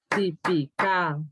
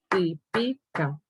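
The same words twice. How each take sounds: First: The stress is on the last syllable. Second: The stress is on the second syllable. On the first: "Y si fuera aguda diría típica" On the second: "Si la palabra fuera grave sería típica"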